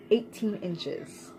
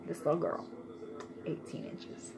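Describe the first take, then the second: First: Said in the usual way. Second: "Eighteen inches" whispered softly. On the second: Shown as a demonstration. Mom marveling at her little girl's length, whispered. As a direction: breathe it out in awe.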